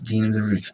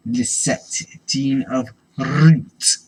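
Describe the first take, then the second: First: Said in the usual way. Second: Slow, loud, booming name; grand announcer. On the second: Pretend. Dramatic card name reading.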